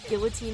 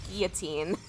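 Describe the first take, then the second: First: The word has an English-style pronunciation. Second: The word has a French-style pronunciation. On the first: The speaker calls it wrong. "Guillotine is not a word" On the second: The speaker calls it right. "It's a French word"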